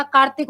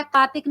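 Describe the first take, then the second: First: कार्तिक said as kaartik, r before the t; r sounded. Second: कार्तिक said as kaatik, without the r; r dropped. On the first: Teacher correcting to the tatsam word, कार्तिक with r sounded. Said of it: "कार्तिक होता है". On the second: Teacher showing students the wrong form, कार्तिक without r. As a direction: leave the r out of कार्तिक. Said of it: "कार्तिक नहीं होता". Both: Shown as a demonstration.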